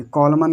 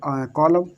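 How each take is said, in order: First: कॉलमन with the N sounded; learner's wrong reading. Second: कॉलम closing on M; corrected, N silent. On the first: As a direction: say कॉलमन as "col-man". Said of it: "कॉलमन कर रहा होगा". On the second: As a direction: say कॉलम as "co-lam", no N. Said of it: "but ये आउटम". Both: Shown as a demonstration.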